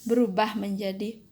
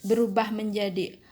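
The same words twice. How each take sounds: No difference in how they are said.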